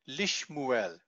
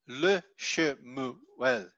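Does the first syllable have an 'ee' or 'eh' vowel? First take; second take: ee; eh. First: The first vowel is i, in three syllables. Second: The first vowel is e, in four syllables. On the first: The speaker calls it right. "you get Lishmuel" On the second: The speaker calls it wrong. "and not Le Shemuel"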